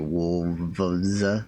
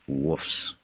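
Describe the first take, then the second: First: The word is said with an L sound. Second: The word is said without an L, like woofs. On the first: "I say wolves" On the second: "They say wolves"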